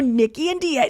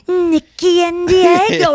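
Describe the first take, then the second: First: It is said lightly and teasingly at normal pace. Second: It is said slowly and dramatically, like slow motion. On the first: This is how it was actually said. "She probably said it like that" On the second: This is how it felt to the listener. "but to me it was like"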